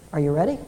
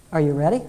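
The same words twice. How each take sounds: The two takes are said the same way.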